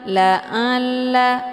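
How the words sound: The ain sound comes out through the nose. The speaker calls it wrong. "Kalau dibaca la'alla, itu bacaan yang salah karena ain ini sudah keluar dari jalur hidung"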